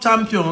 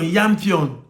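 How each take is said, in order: First: The word begins with a 'ch' sound. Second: The word begins with a 'y' sound.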